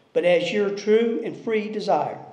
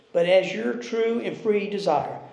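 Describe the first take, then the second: Both takes have the same delivery.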